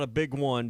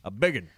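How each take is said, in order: First: It is said as two separate words. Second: It is blended into one short word. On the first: "Not a" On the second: "that's how you say it"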